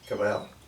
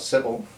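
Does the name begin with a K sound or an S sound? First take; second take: K sound; S sound. First: The name begins with a K sound. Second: The name begins with an S sound. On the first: The speaker calls it right. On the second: The speaker calls it wrong.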